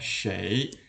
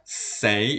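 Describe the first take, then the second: First: The word begins with an sh sound. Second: The word begins with a plain s sound. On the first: The speaker calls it right. "kebanyakan sekarang orang bacanya shui" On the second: The speaker calls it wrong. "kalau dibaca sei itu salah ya. Sei artinya tambah tanpa h"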